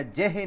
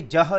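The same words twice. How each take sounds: First: ਜਹ said wrongly as jehe, with two syllables; ਜਹ stretched to jehe; wrong pronunciation. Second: ਜਹ said as one short syllable, jah; correct pronunciation. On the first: Preacher showing the mistaken reading jehe of ਜਹ. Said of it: "ਜਹ ਨਹੀਂ ਹੈ". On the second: Preacher teaching the congregation to say ਜਹ as jah. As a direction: say ਜਹ as jah, no vowel after the j. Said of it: "ਇਹ ਜਹ ਲਫ਼ਜ਼ ਹੈ". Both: Shown as a demonstration.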